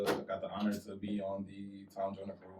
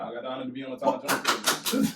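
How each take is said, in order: First: It is said in a flat, unexcited voice. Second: It is said in an excited, energetic voice. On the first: The speaker calls it wrong. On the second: The speaker calls it right.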